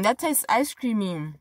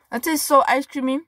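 First: Said in the usual way. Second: That tastes so ice creamy, higher and delighted; a higher, delighted repeat of the taste verdict. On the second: Shown as a demonstration. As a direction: savour it with delight.

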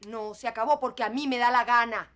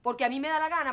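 First: Louder, firm and final; defiant declaration. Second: Louder, higher, hammering insistence; defiant repeat. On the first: Mother tells her daughter it's over because she says so, defiant. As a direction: slam down the decision. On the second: Mother repeats her decision to her daughter, defiant and loud. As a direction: hammer home the words me da la gana. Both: Acted.

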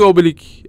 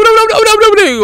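First: Said in the usual way. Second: High yelping oblik; excited squeal. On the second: Real, not acted. Gamer squealing at a strange creature. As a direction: squeal the word out in surprise.

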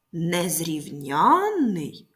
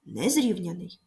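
First: Незрівнянний, slowly, with НЯН stretched and raised; незрівнянний with long stressed ЯНН. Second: Незрівняний with early stress on РІВ; незрівняний with an unstressed suffix, weight on РІВ. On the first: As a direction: hit the late syllable НЯН in незрівнянний. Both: Shown as a demonstration. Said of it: "коли наголос змінюється".

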